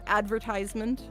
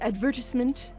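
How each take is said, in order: First: It is said with an American pronunciation. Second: It is said with a British pronunciation. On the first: The speaker calls it wrong. "instead of" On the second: The speaker calls it right. "I love the pronunciation"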